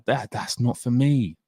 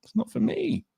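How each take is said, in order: First: Said in the usual way. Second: Much higher, softer whiny refusal; hammed-up high whine repeating the refusal; high mock whine. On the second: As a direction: squeak it out like a sulking kid. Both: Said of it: "I was like".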